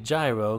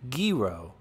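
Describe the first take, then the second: First: It is said the usual English way. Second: It is said the way a Greek speaker says it. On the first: This is how people around here say it. "I still pronounce it gyro" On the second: This is how it is said in Greek. "a Greek coworker who said it's pronounced gyro"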